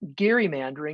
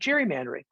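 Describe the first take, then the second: First: The word starts with a hard G sound. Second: The word starts with a soft G sound. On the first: The speaker is showing off knowledge. "people who want to show that they really know what they're talking about will say" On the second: This is the common way most people say it. "I just go with soft G"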